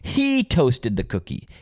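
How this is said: The stress falls on the word he. It was him and not someone else. "who toasted the cookie? ... Him, not me"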